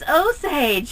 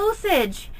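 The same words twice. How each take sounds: First: The word is said with the usual American pronunciation. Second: The word is said with a non-native pronunciation. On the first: The speaker calls it right. "It's Osage" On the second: The speaker calls it wrong. "It's not Osage"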